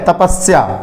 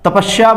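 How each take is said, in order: First: The middle consonant is an s sound. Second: The middle consonant is an sh sound. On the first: The speaker calls it right. "ये श नहीं है, ये स है" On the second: The speaker calls it wrong. "श बोल देते हैं"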